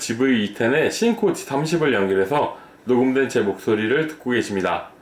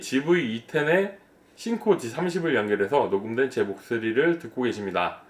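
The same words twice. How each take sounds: First: The voice is recorded at maximum input gain. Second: The voice is recorded at medium input gain. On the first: "최대 15로 맞춰서 ... 지금 목소리는 좀 크게 들리실지" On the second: "지금 개인값은 7 정도 되고요"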